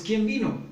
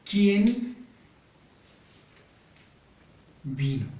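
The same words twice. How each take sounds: First: Quick, lifted everyday "¿Quién vino?" with the fall on vino; natural everyday question. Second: Slow, split into separate words, ¿Quién higher and louder than vino; dictating while writing. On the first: Retold or imitated. Teacher acting a family member hearing the front door, natural question. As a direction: ask it as if you just heard the door open. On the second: Shown as a demonstration. Teacher writing the example question for pupils, slow and broken up. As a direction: say "¿Quién" and "vino?" apart, as if writing each on the board. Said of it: "aquí vamos".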